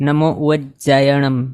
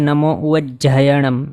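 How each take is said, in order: First: The middle consonant is said without aspiration. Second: The middle consonant is said with aspiration. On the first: The speaker calls it wrong. "નહીં બોલવું જોઈએ" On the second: The speaker calls it right. "એ સાચું છે"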